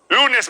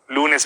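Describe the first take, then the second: First: The words are spoken at a high pitch. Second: The words are spoken at a medium pitch. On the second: "Luego en tono medio"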